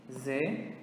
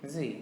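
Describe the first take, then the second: First: Z said as "zeh"; Portuguese letter Z. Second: Z said as "zee"; English letter Z. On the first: Teacher naming the letter in Portuguese first, Z as "zeh". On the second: Teacher answering with the English letter, Z as "zee". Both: Shown as a demonstration. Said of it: "in English is going to be".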